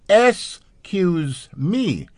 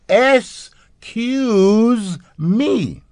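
First: It is said at a normal pace. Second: It is said more slowly, drawn out.

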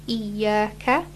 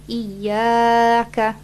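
First: The vowel is held for only two counts. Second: The vowel is drawn out too long. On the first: The speaker calls it right. "So just iyaka" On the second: The speaker calls it wrong. "don't pull it for too long, so not iyaka"

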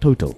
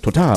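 First: It is said with a South African English pronunciation. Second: It is said with a French pronunciation. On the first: "South Africans call it Total" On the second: "if you're doing the French pronunciation, it's Total"

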